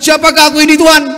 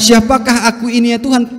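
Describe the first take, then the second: First: It is said harshly, without humility. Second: It is said softly and humbly.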